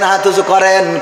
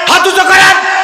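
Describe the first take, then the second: First: It is said in a calm voice. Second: It is shouted in an angry voice.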